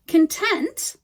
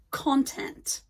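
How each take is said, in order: First: "Content" stressed on TENT, with a weak first syllable; stress on second syllable. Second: "content" stressed on CON, with a full o; stress on first syllable. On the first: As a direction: say "Content" as kun-TENT, like the adjective. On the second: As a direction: say "content" as KON-tent, like the noun. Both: Shown as a demonstration. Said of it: "we stress the syllables differently".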